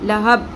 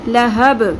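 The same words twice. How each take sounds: First: The final b stops flat without a bounce. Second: The final b ends with an echoing bounce. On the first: The speaker calls it wrong. "लहब ऐसे नहीं पढ़ना" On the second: The speaker calls it right. "यहाँ पर भी हम क़लक़ला करेंगे"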